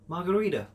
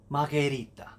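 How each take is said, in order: First: It is said with an American English accent. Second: It is said with an Italian accent. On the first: "I'm going to pronounce them in English first, American English" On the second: "pronounce them like an Italian would"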